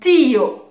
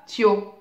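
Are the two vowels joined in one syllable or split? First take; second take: split; joined. First: The two vowels are split into separate syllables. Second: The two vowels glide together in one syllable. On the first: The speaker calls it right. "on dit tio" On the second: The speaker calls it wrong. "on ne dit pas tio"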